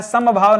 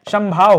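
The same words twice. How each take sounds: First: समभाव split as sa-ma-bhav; wrong form. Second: समभाव run together as sam-bhav; no vowel between m and bh in समभाव; correct form. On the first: Teacher showing the misprint, समभाव in three syllables, sa-ma-bhav. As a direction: sound a short a after m in समभाव. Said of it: "गलत लिखा है". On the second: Teacher correcting the misprint, समभाव in two syllables, sam-bhav. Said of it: "समभाव होता है". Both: Shown as a demonstration.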